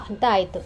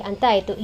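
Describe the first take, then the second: No difference in how they are said.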